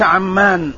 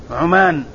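First: عمان with a after ayn, doubled m, long aa; Amman pronunciation. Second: عمان with u after ayn, single m, long aa; Oman pronunciation. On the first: Teacher ruling out the Jordanian city, عمان said ʕammaan with doubled m. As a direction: say عمان as ʕam-MAAN, holding the m. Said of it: "بفتح العين وتشديد الميم الممدودة". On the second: Teacher spelling out the region's name, عمان said ʕumaan with short u. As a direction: say عمان as ʕu-MAAN, the m not doubled. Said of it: "بضم العين وفتح الميم الممدودة". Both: Shown as a demonstration.

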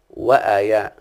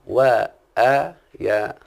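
First: Said in the usual way. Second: وآيا stretched very slowly, every vowel held long; drawn-out vowels. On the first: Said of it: "وذلك أنهم يقولون". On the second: Shown as a demonstration. Teacher to his students, drawing out وآيا very slowly. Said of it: "خلاص يا شيخنا؟".

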